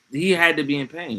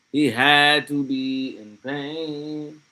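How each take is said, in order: First: Said in the usual way. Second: Drawn out very slowly, each word weighed; slow, deliberate stress on "had"; slow emphatic repeat. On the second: Shown as a demonstration. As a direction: let every word of "He had to be in pain" sink in slowly. Repeats line slower for emphasis.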